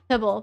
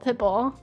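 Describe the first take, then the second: First: It is said quickly with the t dropped. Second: It is said carefully with a clear t.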